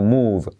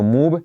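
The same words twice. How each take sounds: First: "move" ending in a buzzing V; correct final V. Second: "move" wrongly ending in a B, like "moob"; wrong final B. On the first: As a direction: let the V of "move" buzz, not a B. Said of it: "semiclave V". ("move" con V final, no B) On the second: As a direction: close the lips on the end of "move", as B. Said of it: "no move, sino move". ("move" mal dicho, con B final) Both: Shown as a demonstration.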